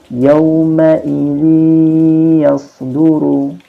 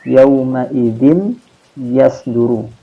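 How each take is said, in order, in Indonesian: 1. Bunyi n menyatu secara sengau ke dalam y berikutnya. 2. Bunyi n diucapkan terpisah sebelum y.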